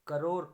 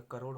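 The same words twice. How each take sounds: First: करोड़ said loudly as 'karor'; r for flap. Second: Said in the usual way. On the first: Shown as a demonstration. Teacher showing an error, करोड़ with simple final r. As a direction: end करोड़ on a plain r. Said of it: "गलत हो गया". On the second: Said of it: "होता है".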